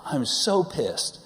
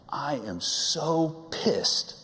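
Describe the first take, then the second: First: High, slow and louder furious quote; now the uncensored angry version, a bit louder; hammed-up fuming wife, louder; louder mock angry mom. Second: High, drawn-out furious quote of mom; mock fury, high and very slow; mock angry mom. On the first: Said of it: "actually what she said was much worse". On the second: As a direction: play the fuming wife, stretched slow. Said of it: "and she said".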